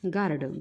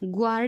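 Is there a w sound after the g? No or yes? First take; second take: no; yes. First: No w sound follows the g. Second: A w sound follows the g. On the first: The speaker calls it right. "हा काय होतो बघा" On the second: The speaker calls it wrong. "ग्वार्ड म्हणायचं नाही"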